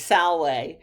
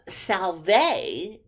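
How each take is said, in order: First: The consonant after the L sounds like W. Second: The consonant after the L sounds like V. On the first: This is the classical Latin pronunciation. "the V was pronounced like a W in Caesar's Latin" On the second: This is the church Latin pronunciation. "which you learned if you're learning church Latin"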